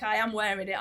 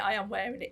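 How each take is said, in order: First: "am" leaned on, insisting; stress on am. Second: "I" lifted, rising at the end; stress on I. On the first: Patient Steve insisting to the doc, stress on "am". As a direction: press the "am" in "I am wearing it". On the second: Patient Steve repeating his claim, "I" stressed with a rise. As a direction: lift the "I" in "I am wearing it" and end rising. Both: Retold or imitated. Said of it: "he says".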